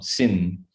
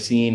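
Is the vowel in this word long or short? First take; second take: short; long. First: The vowel is short, like English sin. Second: The vowel is long, like English seen. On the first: The speaker calls it right. "No, sin" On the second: The speaker calls it wrong. "Not seen like he was seen at the mall"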